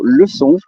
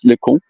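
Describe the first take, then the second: First: The middle consonant is an S sound. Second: The middle consonant is a hard K sound. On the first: It means lesson. The speaker calls it right. "to pronounce with an S" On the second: It becomes a rude word. The speaker calls it wrong. "you will pronounce le con"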